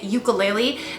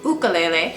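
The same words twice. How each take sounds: First: It uses the common everyday pronunciation. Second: It uses the traditional pronunciation. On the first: "while it's completely okay to call it ukulele" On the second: "the traditional pronunciation and the more I'd say correct pronunciation"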